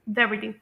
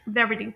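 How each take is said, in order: First: The t is a soft flap, like a d. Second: The t is a soft flap, like a d.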